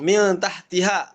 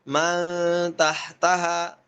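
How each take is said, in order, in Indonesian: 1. Huruf m diikuti vokal i. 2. Huruf m diikuti vokal a. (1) "bukan dibaca kasroh lagi mimnya" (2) "tapi man tahtaha"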